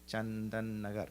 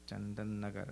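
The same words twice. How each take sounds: Both takes have the same delivery.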